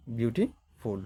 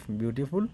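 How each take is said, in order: First: "beautiful" broken in two, "beauty", pause, "ফুল"; two-step pronunciation. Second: Said in the usual way. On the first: Shown as a demonstration. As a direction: pause inside "beautiful" to show its two parts. ("Beautiful" মাঝে থেমে দুই ধাপে) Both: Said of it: "এখানে দুইটা ধাপ আছে".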